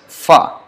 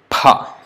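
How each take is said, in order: First: It starts with an f sound. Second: It starts with a p plus a breath. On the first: The speaker calls it wrong. "In Hindi, this pa is pronounced as fa, but in Sanskrit it is wrong" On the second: The speaker calls it right. "It has to be pronounced as pa"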